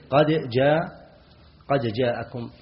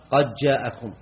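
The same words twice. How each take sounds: First: "قد جاءكم" with a distinct, released dal before the jim; clear articulation. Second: "قد جاءكم" with the dal swallowed into a doubled jim, qajja'akum; merged dal. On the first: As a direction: sound the d of "قد" fully, qad jaa'akum. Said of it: "القراءة المشهورة هي بالتحقيق". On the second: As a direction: run "قد" straight into "جاءكم" as qaj-jaa'akum, no d sound. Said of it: "أدغم الدال". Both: Shown as a demonstration.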